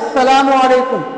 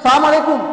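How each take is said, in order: First: It is said fully, keeping the l sound. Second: It is said fast, dropping the l sound. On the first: The speaker calls it right. "अस्सलामु अलैकुम कहना चाहिए" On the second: The speaker calls it wrong. "इतना तेज बोलते हैं कि लान को काट देते हैं"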